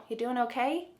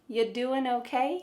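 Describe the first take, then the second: The two takes are said the same way.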